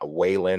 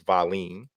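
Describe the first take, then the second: First: The name begins with a W sound, long A. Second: The name begins with a V sound. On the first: The speaker calls it wrong. "or Wa- Wayland or whatever way" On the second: The speaker calls it right. "but it's Valine"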